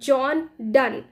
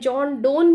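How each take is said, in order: First: The surname has a short uh vowel. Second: The surname has a long oh vowel. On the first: The speaker calls it right. "It is John डन" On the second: The speaker calls it wrong. "John डोन भी नहीं है"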